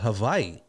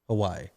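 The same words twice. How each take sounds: First: The middle consonant is a V sound. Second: The middle consonant is a W sound.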